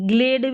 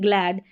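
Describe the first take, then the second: First: The vowel sounds like the one in 'gate'. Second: The vowel sounds like the one in 'cat'. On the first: The speaker calls it wrong. "ग्लेड भी नहीं पढ़ेंगे" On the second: The speaker calls it right. "इसको ग्लैड पढ़ेंगे"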